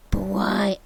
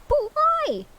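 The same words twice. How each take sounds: First: Said in the usual way. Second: "why" shot up high and loud; high indignant cry. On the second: Shown as a demonstration. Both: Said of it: "Oh, shit, fuck".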